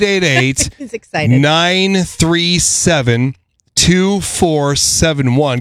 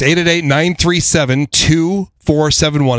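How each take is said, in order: First: The number is said slowly. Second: The number is said very fast.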